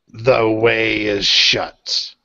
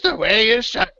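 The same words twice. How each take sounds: First: It is said in a deep, gravelly voice. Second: It is said in a lighter, mocking voice.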